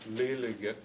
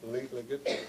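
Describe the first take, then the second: First: The L sound is a plain English-like L. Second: The L sound is a hard L. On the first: The speaker calls it wrong. "I would be pronouncing it in the um, Siwa type way. It wouldn't be correct" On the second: The speaker calls it right. "but it's a hard L"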